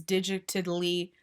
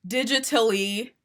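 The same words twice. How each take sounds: First: "digitally" garbled with an extra syllable, like "digi-tidly"; "digitally" fumbled slowly as "digi-tid-ly"; stumbled pronunciation. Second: Said in the usual way. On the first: Real, not acted. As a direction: trip over "digitally", doubling the middle syllable. Slip, then said over correctly.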